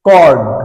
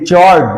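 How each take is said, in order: First: The word begins with a k sound. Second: The word begins with a ch sound. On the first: The speaker calls it right. "CH এখানে কে উচ্চারিত হবে" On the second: The speaker calls it wrong. "No no, এর উচ্চারণ চড নয়"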